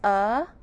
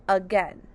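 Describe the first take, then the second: First: AGAIN broken into two separate syllables; a clear gap between the uh and gain of "again"; split into syllables. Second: Said in the usual way. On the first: Shown as a demonstration. Teacher showing the syllables of again, split into syllables. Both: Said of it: "the syllables of again are".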